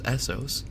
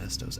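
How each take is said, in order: First: "Essos" said ES-sos with a soft s; "Essos" with a double s and no t; corrected pronunciation. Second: "Estos" with a t sound in the middle; wrong pronunciation. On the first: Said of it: "not Estos". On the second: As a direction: say "Estos" as ES-tos, not ES-sos. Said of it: "or Essos, not Estos". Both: Shown as a demonstration.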